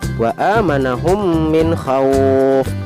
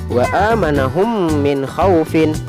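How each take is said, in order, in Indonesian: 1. Kata terakhir berakhir dengan konsonan mati. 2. Kata terakhir berakhiran dengan harakat penuh.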